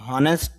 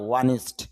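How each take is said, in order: First: The word begins with an h sound. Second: The word begins with a vowel sound. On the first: The speaker calls it wrong. "হনেস্ট না" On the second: The speaker calls it right.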